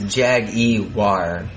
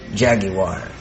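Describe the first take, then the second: First: An extra 'ee' sound comes before 'war'. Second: No extra sound comes before 'war'.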